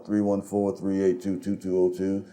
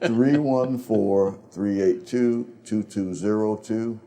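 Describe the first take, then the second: First: The number is said fast. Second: The number is said slowly.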